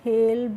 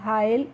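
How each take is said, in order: First: The vowel sounds like 'ay'. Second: The vowel sounds like 'eye'. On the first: The speaker calls it right. "कैसे करना है बच्चों" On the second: The speaker calls it wrong. "इस तरीके से नहीं pronounce करना है"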